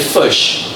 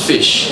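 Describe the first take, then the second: First: The vowel is a u-like sound, local accent. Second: The vowel is a standard short i sound. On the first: This is how people from the region say it. "don't have the letter I in their alphabet. They've replaced it with a U. So they say fish" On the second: This is how others say it. "not fish"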